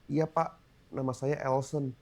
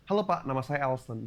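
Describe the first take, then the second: First: It sounds timid and closed off. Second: It sounds relaxed and confident.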